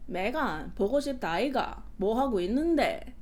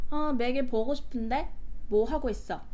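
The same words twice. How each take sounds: First: Korean in a swooping Busan lilt; Busan dialect imitation. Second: Korean with even Seoul intonation; Seoul dialect. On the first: Imitating a guy from Busan calling her, Busan dialect. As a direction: imitate a Busan man's sing-song Korean. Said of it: "I can just imitate him". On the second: Shown as a demonstration. Showing how a Seoul caller would say it, Seoul dialect. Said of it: "In Seoul dialect, it'll be like".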